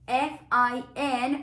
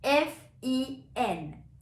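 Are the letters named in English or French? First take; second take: English; French. First: The letters are named with English letter names. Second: The letters are named with French letter names.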